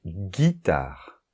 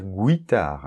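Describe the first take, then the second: First: Guitare said very slowly, gu as hard g; slow demo word. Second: Guitare said as gwitare, with a w; wrong pronunciation. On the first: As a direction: drawl out guitare, no w sound. (guitare très lent, gu dur sans w) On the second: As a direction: mispronounce guitare with a w after the g. (guitare prononcé gwitare, avec un w) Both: Shown as a demonstration. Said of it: "on ne va pas dire guitare".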